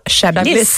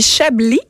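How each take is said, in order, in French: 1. Le S final est prononcé. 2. Le S final est muet. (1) "et non pas Chablis" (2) "le S est silencieux. Donc, on dit Chablis"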